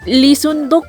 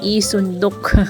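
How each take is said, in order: First: The name begins with an L sound. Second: The name begins with a vowel sound. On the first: "Lisundok po ang pangalan ng aking biyenan" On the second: "hindi nila pino-pronounce yung L. So I lang po instead of Li"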